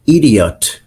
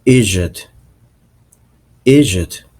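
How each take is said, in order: First: Idiot with a clear D; American pronunciation. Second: Idiot said as "ee-jit"; Irish pronunciation. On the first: Teacher showing how Americans say idiot, clear D. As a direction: say "idiot" in full, as "id-ee-ut". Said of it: "idiot sounds in American accent". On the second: Teacher showing how idiot sounds in Irish, as "ee-jit". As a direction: say "idiot" with the D turned into a J. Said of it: "In Irish, sounds like". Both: Shown as a demonstration.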